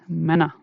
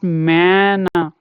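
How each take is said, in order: First: The first vowel is short and quick. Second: The first vowel is drawn out long. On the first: The speaker calls it right. "you have to pronounce it quick" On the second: The speaker calls it wrong. "So this is not mana. No, that's not right"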